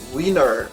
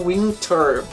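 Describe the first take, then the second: First: The T after the N is dropped. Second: The T after the N is pronounced. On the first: The speaker calls it right. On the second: The speaker calls it wrong. "não"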